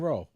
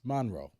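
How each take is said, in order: First: It is pronounced the way Michigan locals say it. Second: It is pronounced the way Louisiana locals say it. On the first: This is how the city's name is said in Michigan. "Here we call it" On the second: This is how the city's name is said in Louisiana. "Down there, it's"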